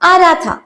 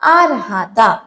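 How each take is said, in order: First: The word raha is shortened to one syllable. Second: The word raha is said with both syllables.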